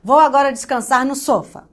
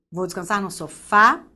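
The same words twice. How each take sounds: First: "sofá" wrongly said SÓ-fa, first syllable stressed. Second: "sofá" said so-FÁ, ending stressed; stress on last syllable. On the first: Teacher testing the word on students, "sofá" stressed on SO. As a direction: hit the "so" of "sofá", let "fa" drop. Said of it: "fala cada sílaba tônica". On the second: Teacher showing the audible word, "sofá" stressed on FÁ. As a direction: land firmly on the "fá" of "sofá". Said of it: "ver qual é a palavra que vai ser estranha". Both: Shown as a demonstration.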